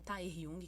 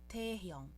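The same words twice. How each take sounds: First: The first vowel sounds like 'ai'. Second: The first vowel sounds like 'e'. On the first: The speaker calls it wrong. "A gente está acostumado a falar" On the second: The speaker calls it right. "É um sonzinho de E e não um sonzinho de Tae"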